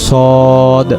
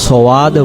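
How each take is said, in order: First: No w glide follows the first consonant. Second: A w glide follows the first consonant. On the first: The speaker calls it right. "এখানে উচ্চারণ হবে সদ" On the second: The speaker calls it wrong. "যদি এটাকে আমরা সওয়াদ পড়ি তখন বানানে দেখেন যে ওয়াও একটা যুক্ত হয়ে যাচ্ছে"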